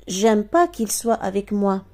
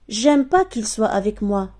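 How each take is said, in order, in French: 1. Le 'n' de la négation est omis. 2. Le 'n' de la négation est omis.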